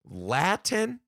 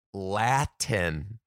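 First: High, rising, baffled LATIN; incredulous question. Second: Said in the usual way. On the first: Real, not acted. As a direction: ask "Latin" in disbelief, pitching it up. Repeats it in disbelief.

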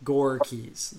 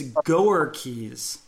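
First: "Gore" as one syllable, then "Keys"; "Gore" like the word gore, no extra syllable; phonetic GORE. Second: "Goer" in two syllables, GO-er; misleading spelling. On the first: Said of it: "I would have put G O R E". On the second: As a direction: read "Goer Keys" as GO-er-keys. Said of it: "makes it seem like it's". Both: Shown as a demonstration.

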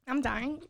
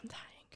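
First: Higher groaning complaint; pained by sourness. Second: Breathless whisper through sour pain. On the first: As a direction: moan it through the sour candy. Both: Real, not acted.

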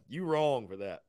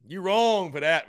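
First: Said in the usual way. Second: Drawn out playful scold; louder, slower teasing. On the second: Real, not acted. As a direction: call him out louder and slower.

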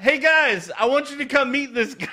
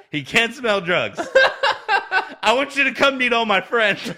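First: Much higher and louder, calling across a room; excited call out. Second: Words breaking up with laughter, higher and louder; can barely get the punchline out for laughing; laughing through it. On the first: Host voicing wrestler calling fellow wrestlers over, excited call. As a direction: hail the whole crew with glee. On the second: Podcast host retelling wrestler's airport prank to cohost, laughing hard. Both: Retold or imitated.

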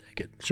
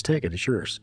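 First: Hushed whisper, voiceless and secret. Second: Said in the usual way. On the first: Retold or imitated. Sonny pressing the money on his friend, whispered. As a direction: breathe it like a secret offer.

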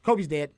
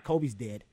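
First: Retold casual announcement; nonchalant again. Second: Casual, offhand delivery of bad news; mildly imitated flat girlfriend; nonchalant. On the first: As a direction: say it plainly like small talk. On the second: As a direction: toss it off like nothing. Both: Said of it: "She said it in such a nonchalant manner".

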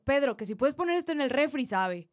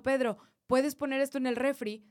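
First: Asked again, louder and pushier; fed-up second request ending in a firm sabe; impatient repeat. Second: Said in the usual way. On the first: Shown as a demonstration. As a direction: say it again because he ignored you. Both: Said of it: "y no me haces caso".

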